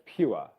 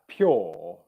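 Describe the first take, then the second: First: The vowel is a 'ua' diphthong. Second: The vowel is a long 'or' sound. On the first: The speaker calls it right. "I would still highly recommend that you pronounce that word pure" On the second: The speaker calls it wrong. "you wouldn't pronounce that pure"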